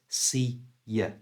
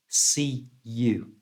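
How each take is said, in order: First: The last word ends with a weak schwa vowel. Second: The last word ends with a full 'oo' vowel. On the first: "we change the oo sound out of you to the schwa sound" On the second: "it's see you"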